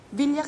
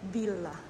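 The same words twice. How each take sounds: First: The L sound is short and single. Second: The L sound is doubled and held longer. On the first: This is how it is said back home. "Villa kasi sa atin" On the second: This is how locals here say it. "You have to pronounce double, the double L"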